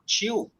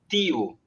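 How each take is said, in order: First: Said in a non-Northeastern Brazilian accent. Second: Said in a Northeastern Brazilian accent.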